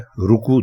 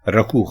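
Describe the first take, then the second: First: The first syllable has the vowel 'u'. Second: The first syllable has the vowel 'a'. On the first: The speaker calls it right. "रुकू दुरुस्त है" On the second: The speaker calls it wrong. "रकू गलत है"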